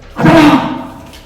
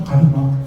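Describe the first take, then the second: First: It is called out sternly, without sorrow. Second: It is called in a sorrowful, pitying voice.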